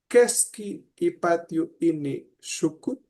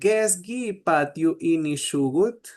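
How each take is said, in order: First: The first word starts with a hard K sound. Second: The first word starts with a soft G sound. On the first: This is how people from Nahuizalco say it. "Pero ellas decían" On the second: This is how the speaker's own community says it. "Nosotros decimos"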